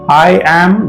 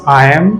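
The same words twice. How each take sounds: First: 'I am' is said as two full words. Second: 'I am' is contracted to one syllable.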